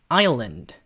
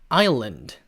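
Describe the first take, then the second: The two takes are said the same way.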